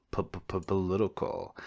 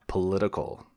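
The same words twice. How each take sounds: First: P-p-p-political with the P repeated, slow and softer; playful stutter. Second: Said in the usual way. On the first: Pretend. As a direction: stammer the P in P-p-p-political on purpose. Stuttering on the word.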